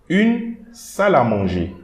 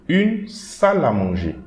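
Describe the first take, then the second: The two takes are said the same way.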